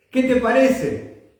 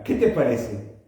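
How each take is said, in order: First: Raised, higher-pitched question to the congregation; insistent repeat. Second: Said in the usual way. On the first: Real, not acted. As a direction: press the question on the listeners, pitched up. (pregunta insistente, en tono más alto)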